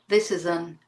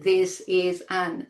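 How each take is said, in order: First: 'An' has a weak schwa and is linked. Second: 'An' has a full vowel, said separately. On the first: The speaker calls it right. "It's this is an" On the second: The speaker calls it wrong. "Not this is an"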